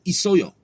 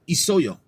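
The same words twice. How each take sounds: Both takes have the same delivery.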